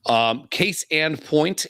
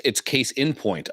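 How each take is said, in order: First: Slow careful case and point; wrong phrase. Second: Case in point said slowly; right phrase. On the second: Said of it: "I say case in". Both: Shown as a demonstration.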